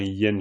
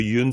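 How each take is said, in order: First: The syllable is said with a 'yen' vowel. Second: The syllable is said with a 'yun' vowel. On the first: The speaker calls it right. "c'est plutôt un yen là" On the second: The speaker calls it wrong. "il n'y a pas de yun"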